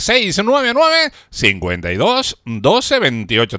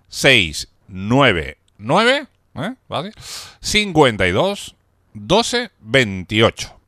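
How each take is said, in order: First: The number is said at normal speed. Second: The number is said slowly.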